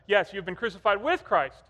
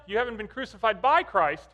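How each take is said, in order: First: "with" punched as the right word; stress on with. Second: "by" punched as the mistaken word; stress on by. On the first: Dad confirming his sons' answer, stressing "with". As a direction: lean on "with" to confirm the fix. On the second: Dad correcting his sons' verse, stressing "by". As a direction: lean hard on "by" to flag the error. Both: Retold or imitated.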